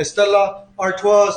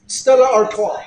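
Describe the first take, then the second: First: "Stella Artois" said slowly with a French "Artois", ar-TWAH; slow careful French "Artois", ar-TWAH, no final s; French pronunciation. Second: "Stella Artois" said the English way, "Artois" as ar-TOY; casual English "Artois", ar-TOY; anglicized pronunciation. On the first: Reading out his beer brand, "Artois" said ar-TWAH, French style. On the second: Naming his beer again, "Artois" said ar-TOY the English way. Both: Shown as a demonstration. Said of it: "I gotta pronounce it properly".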